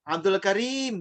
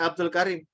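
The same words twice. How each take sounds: First: Abdul Karim with the i in Karim held long. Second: Abdul Karim with a short clipped i in Karim; wrong short i. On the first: Teacher shows how Arabs say Karim with long i. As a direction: stretch the i in Karim. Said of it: "Dia akan bilang begitu". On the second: Teacher shows the wrong short Karim. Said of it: "nggak Abdul Karim". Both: Shown as a demonstration.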